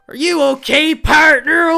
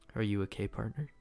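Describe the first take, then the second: First: It is said in a put-on character voice. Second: It is read in the speaker's ordinary voice.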